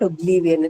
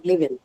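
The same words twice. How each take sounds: First: The vowel in the 'li' syllable is lengthened. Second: All the vowels, including 'li', are short. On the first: The speaker calls it wrong. "you are saying it as Oblivion. It's not Oblivion" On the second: The speaker calls it right. "It o- only has short vowels"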